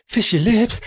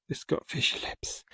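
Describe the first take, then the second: First: Silly high voice. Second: Whisper. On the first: Sing-song repeat of the joke. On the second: Whispered aside on sculpture. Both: Pretend.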